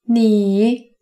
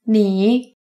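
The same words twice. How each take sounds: First: The word is said a little more slowly. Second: The word is said at normal speed. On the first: "then a little slower for you to repeat with me" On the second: "First at native speed"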